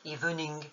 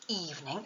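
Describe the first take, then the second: First: The stress is on the last syllable. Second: The stress is on the first syllable. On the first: The speaker calls it wrong. "et non pas sur la dernière, comme le ferait un nom en français" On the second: The speaker calls it right. "il faut mettre l'accent tonique sur la première syllabe"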